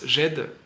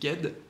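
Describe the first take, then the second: First: The name starts with a soft j sound. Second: The name starts with a hard g sound. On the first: This is how the speaker usually says it. "moi je le prononce Jed" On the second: This may be the proper way to say it. "mais peut-être que ça se dit Ged"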